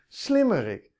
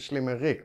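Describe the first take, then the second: First: The stress is on the first syllable. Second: The stress is on the last syllable. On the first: A clever person. The speaker calls it right. "de klemtoon ligt er niet op" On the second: A clever person named Rick. The speaker calls it wrong. "als je iemand kent die Rick heet en heel slim is"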